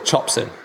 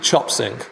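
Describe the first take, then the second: First: The final g sound is dropped. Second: The final g sound is pronounced. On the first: "you would normally drop the last letter" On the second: "technically, if you're just speaking in English"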